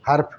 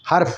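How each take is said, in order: First: The h sound is short and not stretched. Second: The h sound is drawn out and stretched. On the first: The speaker calls it wrong. "लेकिन आप बोलेंगे हर्फ हर्फ हर्फ, तो ये गलत हो जाएगा।" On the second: The speaker calls it right. "हे को जरा खींच के बोलेंगे"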